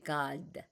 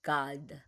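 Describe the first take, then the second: Both takes have the same delivery.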